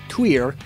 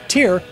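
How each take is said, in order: First: The name is pronounced with native, non-English sounds. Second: The name is pronounced with English sounds. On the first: The speaker calls it right. "can actually pronounce it right" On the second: The speaker calls it wrong. "sissy English speaker like myself"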